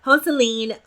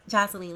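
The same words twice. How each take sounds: First: Joseline said with a breathy H, "HO-se-leen"; Spanish-style name. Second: Said in the usual way. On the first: Shown as a demonstration. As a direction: say Joseline the Spanish way, HO-se-leen, with a bit more force. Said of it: "Joseline, let me stop". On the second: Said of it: "let me stop".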